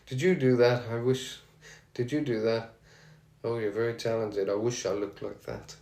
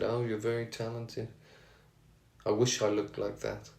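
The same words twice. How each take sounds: First: Put-on a weak, half-hearted Birmingham accent; barely-there Birmingham accent, self-mocking. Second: Put-on lightly done Birmingham accent, soft and quiet; a gentle mock Birmingham accent quoting a singer. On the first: Fan retelling a singer's compliment in mild Birmingham accent. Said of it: "It's my best Birmingham accent there, not the best". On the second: Fan quoting a singer's praise in Birmingham accent. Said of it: "It's my best Birmingham accent there".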